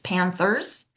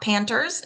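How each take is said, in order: First: The th is pronounced as a th sound. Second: The th is replaced by a plain t. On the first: The speaker calls it right. "don't drop your last T H ... the T H on the Panthers" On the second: The speaker calls it wrong. "It's not Panthers"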